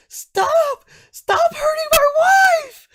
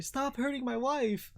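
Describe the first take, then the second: First: Very high, full-force wail; desperate husband's scream. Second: High wail at ordinary volume; husband's thin wail. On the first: Man screaming at an orc to save his wife, desperate. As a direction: scream it desperately, shrieking far above your voice. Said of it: "And then you hear". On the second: Husband smacking an orc, high plaintive wail. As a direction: wail it high without shouting. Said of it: "he's like". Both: Acted.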